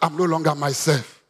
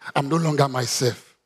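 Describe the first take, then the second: First: It is said more loudly. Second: It is said at normal loudness.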